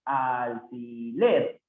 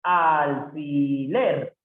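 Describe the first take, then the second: First: Slow repeat. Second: Alfiler drawn out with weight on the last syllable ler; slow stress demo. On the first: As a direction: repeat alfiler calmly, slowly. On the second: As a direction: stretch alfiler slowly, landing on ler. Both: Shown as a demonstration. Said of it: "Alfiler es una palabra aguda".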